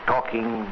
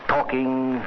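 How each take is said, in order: Both takes have the same delivery.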